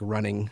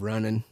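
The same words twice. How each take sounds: First: The word ends with the full '-ing' sound. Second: The word ends with a dropped-g 'in' sound. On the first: The speaker calls it right. "I try to leave the G's on the ends of words like running" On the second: The speaker calls it wrong. "instead of"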